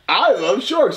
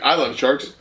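First: It is said warmly, with affection. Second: It is said plainly, without affection.

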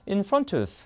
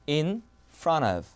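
First: The T is pronounced clearly and fully. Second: The T is softened almost into an L-like flap. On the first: This is the British pronunciation. "영국은 필요 없어. 그냥 이겁니다" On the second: This is the American pronunciation. "약간 리을 발음처럼 변하죠"

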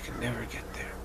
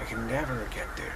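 First: It sounds quiet, calm and accepting. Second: It sounds self-pitying and sorry for oneself. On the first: The speaker simply accepts falling short. The speaker calls it right. "you stop and you're quiet to say" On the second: The speaker despairs at falling short. The speaker calls it wrong. "feeling sorry for yourself and saying"

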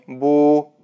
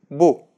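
First: The vowel is drawn out long. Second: The vowel is short. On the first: The speaker calls it wrong. "но не" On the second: The speaker calls it right. "Нужно произносить коротко"

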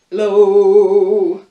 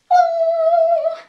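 First: It is said in a very low voice. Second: It is said in a very high voice.

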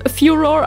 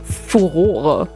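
First: The word is pronounced the English way. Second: The word is pronounced the German way. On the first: "How do you pronounce that in English? ... Well, furor, I guess" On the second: "In German, it would be furore"

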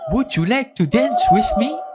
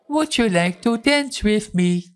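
First: It is said in a natural voice. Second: It is said in a robotic voice.

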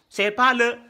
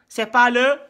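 No difference in how they are said.

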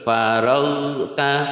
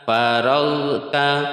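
First: A consonant is released with a bouncing echo. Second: The consonants are released smoothly without echo. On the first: The speaker calls it wrong. "banyak yang keliru dipantulkan faragta salah" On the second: The speaker calls it right. "yang betul faragta"

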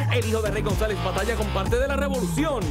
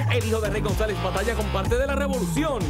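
The two takes are said the same way.

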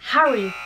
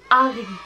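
First: The word starts with an audible H sound. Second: The word starts with a silent H. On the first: The speaker calls it wrong. "mais il n'est pas [name]" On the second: The speaker calls it right. "il est [name]"

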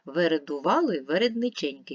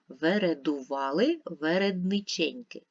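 First: It is read at a faster pace. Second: It is read slowly and calmly. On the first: "Давайте швидше спробуємо" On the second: "Давайте ще раз спокійно і повільно"

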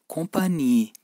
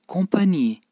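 The two takes are said the same way.

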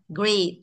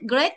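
First: The word carries only a light, moderate stress. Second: The word is forced up with a sharp rising tone. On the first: The speaker calls it right. "Hơi thả là great" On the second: The speaker calls it wrong. "thì trong hỏng hết rồi, thành dấu sắc mất rồi"

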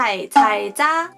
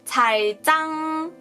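First: The ending is said plainly without nasal sound. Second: The ending is said with an added nasal sound. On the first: "韩文就是" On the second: "如果加个鼻音的话就变成"

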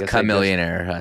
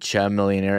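First: The name begins with a k sound. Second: The name begins with a ch sound. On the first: The speaker calls it right. "it's chameleonaire" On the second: The speaker calls it wrong. "You said Chum Millionaire"

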